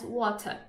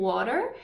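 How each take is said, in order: First: The t is pronounced as a clear t. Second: The t is a soft r-like flap. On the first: "o britânico vai falar o T" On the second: "o americano troca o T para um som mais de R"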